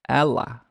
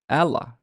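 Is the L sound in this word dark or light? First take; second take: light; light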